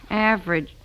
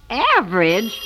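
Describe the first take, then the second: First: Said in the usual way. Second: AVERAGE as a stunned rising question; shocked disbelief. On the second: Acted. Repeats the grade in disbelief.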